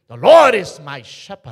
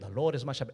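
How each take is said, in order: First: It is read in a grand, poetic way. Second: It is read in a plain, simple way.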